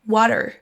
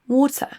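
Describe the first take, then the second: First: It is said in an American accent. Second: It is said in a British accent.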